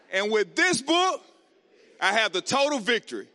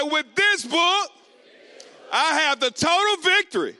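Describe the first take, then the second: First: Said in the usual way. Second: Shouted declaration. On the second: Shown as a demonstration. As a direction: shout it like you mean it. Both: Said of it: "say it like you mean it".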